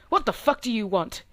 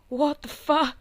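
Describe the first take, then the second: First: It is said in an angry, commanding tone. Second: It is said as a frightened whimper.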